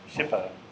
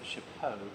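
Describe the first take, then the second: First: The word is said with a plain English sound. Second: The word is said like the French 'chapeau'. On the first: The speaker calls it right. "But it's chapeau" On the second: The speaker calls it wrong. "I used to pronounce it chapeau because I, I thought it sounded French and, and nicer"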